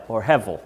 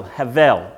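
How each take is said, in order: First: "hevel" with a short E, HEV-el, in a Southern accent. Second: "havel" with an open A sound, HAH-vel; Hebrew-style havel. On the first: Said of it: "is what I like to say, 'cause I'm Southern". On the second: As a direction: say "havel" as hah-vel, stress on the first syllable. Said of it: "but they say it H E V E L". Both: Shown as a demonstration.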